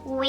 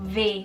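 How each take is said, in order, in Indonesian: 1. Huruf itu diucapkan dengan bunyi w. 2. Huruf itu diucapkan dengan bunyi v. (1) "tidak seperti W" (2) "bibir bawah lo itu agak sedikit ditekan juga, diucapkannya itu V"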